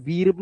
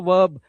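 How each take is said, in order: First: वीर्ब with ee before the r; long ee misreading. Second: वर्ब with uh before the r; 'uh' vowel. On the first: Teacher showing what not to say, ee vowel. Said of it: "इसे वीर्ब नहीं बोलते". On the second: Teacher giving the correct grammar term, uh vowel. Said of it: "अ की आवाज". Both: Shown as a demonstration.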